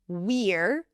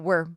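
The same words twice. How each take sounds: First: The word is said fully and clearly. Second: The word is quick and reduced. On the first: "we are is we're" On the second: "if you say it quickly, it would reduce to"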